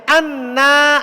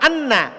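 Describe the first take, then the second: First: The first vowel is long. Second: The first vowel is short. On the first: The speaker calls it right. "Panjang. Tapi anna. Ada alif bengkoknya" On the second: The speaker calls it wrong. "Bukan anna"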